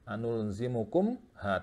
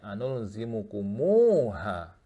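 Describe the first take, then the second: First: The m runs straight into ha, no vowel. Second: The m gets a long u vowel before ha. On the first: The speaker calls it wrong. "Jadi tidak dibaca anul zimukumha" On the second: The speaker calls it right. "disilahkan mim jamaknya ... dibaca dua harokat"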